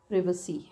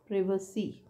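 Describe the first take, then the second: First: The first syllable has a short 'i' vowel. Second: The same.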